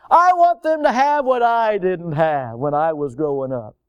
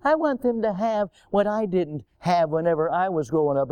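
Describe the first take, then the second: First: Imitated parent. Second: Mocking repeat. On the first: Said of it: "we don't wanna go through those things". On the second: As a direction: repeat the foolish saying with disdain. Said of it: "ultimate of foolishness".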